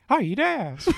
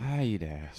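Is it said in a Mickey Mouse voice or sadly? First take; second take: Mickey Mouse; sad. First: It is said in a Mickey Mouse voice. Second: It is said in a sad voice.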